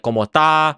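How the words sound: The final s sound is dropped entirely. "they'll drop their s's"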